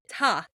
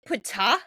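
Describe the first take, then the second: First: The word begins without any P sound. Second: The word begins with a P sound. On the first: "is the P silent?" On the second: "Is it Ptah?"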